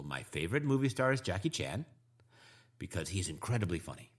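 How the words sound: Words are grouped into two smooth phrase chunks. The speaker calls it right. "I've made two chunks, and those two chunks are excellent"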